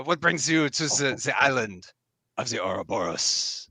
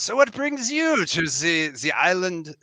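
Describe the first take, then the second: First: Second attempt at a lightly French-accented knight; restrained French lilt. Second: Put-on British accent sliding into French, high start; lively, high French-lilted accent; accidental French lilt. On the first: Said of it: "a little bit of a French lilt". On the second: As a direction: say "the island" as "ze island", French-tinged accent. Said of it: "where's that Z coming from".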